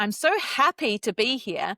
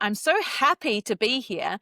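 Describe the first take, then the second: First: It is said in a happy tone. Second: The same.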